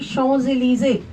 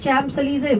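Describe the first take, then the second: First: The name is pronounced with French sounds. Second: The name is pronounced as English spelling suggests.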